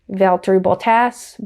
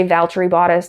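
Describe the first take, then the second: First: "Bottas" said slowly as "BOL-tass", with an l and a flat a; British pronunciation. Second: Said in the usual way. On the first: Retold or imitated. Vlogger mimicking how Brits correct her: slow British "Bottas". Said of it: "They say". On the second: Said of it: "I say".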